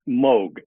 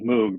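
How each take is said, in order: First: The vowel is a long O sound. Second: The vowel is an oo sound. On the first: The speaker calls it right. "it is Moog, long O" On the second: The speaker calls it wrong. "we all said Moog back in the day because we didn't really know any better"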